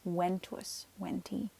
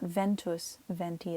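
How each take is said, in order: First: The words begin with a W sound. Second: The words begin with a V sound. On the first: The speaker calls it right. "V's make W sounds" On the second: The speaker calls it wrong. "so it's not ventus venti"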